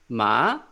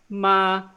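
First: The pitch rises like a question. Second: The pitch stays high and level throughout. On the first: "it's like a question, second tone" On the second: "it's just a flat, high-pitched sound"

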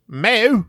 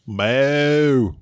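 First: It is said with a Welsh accent. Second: It is said with a Southern twang.

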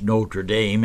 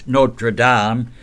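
First: It is said with an American pronunciation. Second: It is said with a French pronunciation.

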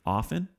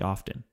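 First: The T sound is silent. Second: The T sound is pronounced. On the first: The speaker calls it right. "the T is silent" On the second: The speaker calls it wrong. "Don't say often"

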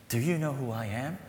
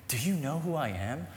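The two takes are said the same way.

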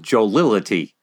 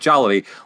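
First: The word is said with four syllables. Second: The word is said with three syllables. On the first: The speaker calls it wrong. "mispronounced this word as jollility" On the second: The speaker calls it right. "She said jollity"

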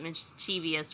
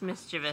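First: It has an extra syllable before the ending. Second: It has no extra syllable before the ending. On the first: The speaker calls it wrong. "I know a lot of people pronounce it mischievous for some reason, but there's no" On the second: The speaker calls it right. "It's just mischievous"

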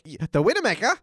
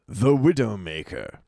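First: It is said in a put-on foreign accent. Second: It is said in a plain American accent. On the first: "can you say that without the accent?" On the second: "without the accent"

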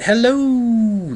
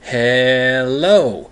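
First: The o sound is drawn out long. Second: The e sound is drawn out long. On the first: "If you add the O's" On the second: "you add a couple E's in there"

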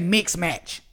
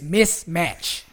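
First: The first syllable ends in a 'ks' sound. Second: The first syllable ends in an 's' sound. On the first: The speaker calls it wrong. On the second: The speaker calls it right. "It's mismatch"

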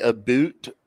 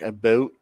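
First: The final vowel sounds like 'oo' in boot. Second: The final vowel sounds like 'oh' in boat. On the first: The speaker calls it wrong. "Really say a boot" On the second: The speaker calls it right. "It's more like a boat"

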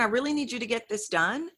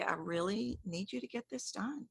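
First: It is said at a normal pace. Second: It is said slowly and deliberately.

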